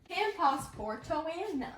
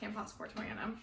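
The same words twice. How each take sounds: First: It is said slowly. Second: It is said fast.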